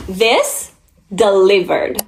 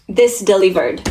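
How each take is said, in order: First: "This" lifted, pause, then "delivered." falling; dramatic pause after This. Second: Said in the usual way. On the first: Shown as a demonstration. Reviewer savoring the verdict, pausing before delivered. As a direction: split it: "This" ... "delivered.".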